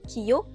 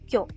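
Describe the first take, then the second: First: It is said as two separate syllables. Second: It is said as one single syllable. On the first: The speaker calls it wrong. "ce n'est pas" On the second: The speaker calls it right. "mais ... ça forme un seul son, une seule syllabe"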